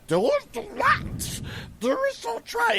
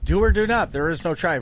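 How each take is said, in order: First: It is said in an exaggerated put-on character voice. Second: It is said in a natural, everyday voice. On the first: The speaker calls it wrong. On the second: The speaker calls it right.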